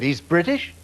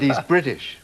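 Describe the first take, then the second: First: He's British? lifted into a question on British; incredulous He's British? rising at the end; questioning rise. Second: Said in the usual way. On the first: Retold or imitated. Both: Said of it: "I said".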